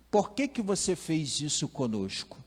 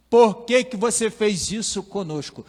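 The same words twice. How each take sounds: First: Said in the usual way. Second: Loud, high, exasperated demand; a mother scolding her lost boy at full force; harsh scolding. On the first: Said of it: "Mas as palavras são essas". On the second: Pretend. Maria scolds the lost twelve-year-old Jesus, loud and sharp. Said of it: "Talvez não nesse tom".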